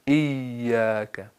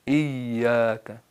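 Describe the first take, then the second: No difference in how they are said.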